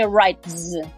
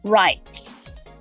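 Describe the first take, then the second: First: The word ends with a voiced z sound. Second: The word ends with an unvoiced s sound. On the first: The speaker calls it wrong. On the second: The speaker calls it right.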